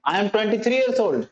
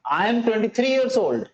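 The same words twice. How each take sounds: The two takes are said the same way.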